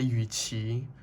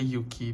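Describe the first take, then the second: First: The name is said with Chinese sounds. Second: The name is said with non-Chinese sounds. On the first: "because I'm Chinese, so I say [name]" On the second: "I don't say Yuki because I'm Chinese"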